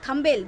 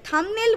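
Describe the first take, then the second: First: The second syllable is said as 'bel'. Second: The second syllable is said as 'nel'. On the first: The speaker calls it wrong. "থামবেল থামবেল বেল বেল করে" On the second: The speaker calls it right. "সেই থামনেল বলতে পারতো না"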